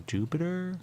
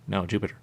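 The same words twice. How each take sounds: First: "Jupiter?" with a rising question tune, pitched much higher. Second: Said in the usual way. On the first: Shown as a demonstration. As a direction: say "Jupiter?" sliding up like a puzzled question. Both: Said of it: "They put a little accent where we go".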